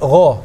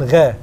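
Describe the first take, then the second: First: The gh sound is said heavy and full. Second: The gh sound is said light and thin. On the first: The speaker calls it right. "Huruf ghain itu mufakham" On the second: The speaker calls it wrong. "bukan gha"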